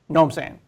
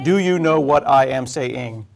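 First: The words are shortened and run together fast. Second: Every word is said fully and separately.

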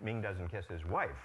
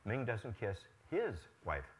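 First: The word "wife" is stressed with higher pitch. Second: The word "his" is stressed with higher pitch. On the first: He kisses other family members instead of his wife. "Now he kisses only his children" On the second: He kisses someone else's wife. "if it's the fourth one there, the word his I want to emphasize"

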